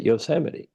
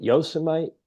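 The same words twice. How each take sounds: First: Yosemite as yoh-SEM-ih-tee, ending in tee; usual pronunciation. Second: Yosemite as YOH-suh-mite, ending like might; mispronounced Yosemite. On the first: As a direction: stress SEM in four-syllable Yosemite. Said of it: "So is it Yosemite". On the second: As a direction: make Yosemite rhyme with Vegemite. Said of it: "or is it Yosemite?". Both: Shown as a demonstration.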